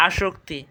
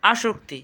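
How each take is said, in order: First: "আসক্তি" with a sh sound, আশোক্তি; correct pronunciation. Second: Said in the usual way. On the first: Shown as a demonstration. Teacher explaining the sibilant, "আসক্তি" said with sh. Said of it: "তালব্য শ হবে". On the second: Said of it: "সঠিক উচ্চারণ কী হবে".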